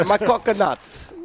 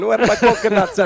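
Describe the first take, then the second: First: Slow, drawn-out Jamaican repeat; Jamaican accent. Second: Loud, high Jamaican shout; Jamaican accent. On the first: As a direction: stretch it out slowly in a Jamaican accent. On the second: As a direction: call it out in a hammed-up Jamaican accent. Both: Pretend. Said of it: "That's Jamaican".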